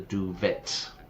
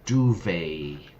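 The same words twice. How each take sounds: First: It is said with a Spanish-learner pronunciation. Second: It is said with native English pronunciation. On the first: The speaker calls it wrong. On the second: The speaker calls it right.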